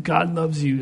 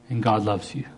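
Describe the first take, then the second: First: Higher-pitched, held-back retold restraint; biting his tongue. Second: Said in the usual way. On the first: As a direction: say it while swallowing the rest. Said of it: "he'd bite his tongue". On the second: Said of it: "All I want you to say".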